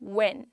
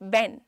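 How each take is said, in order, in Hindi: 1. यह गोल होंठों से शुरू होता है, w जैसी आवाज़। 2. यह b या v जैसी आवाज़ से शुरू होता है। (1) "इट्स व्हेन" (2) "हम बेन साउंड नहीं करता है"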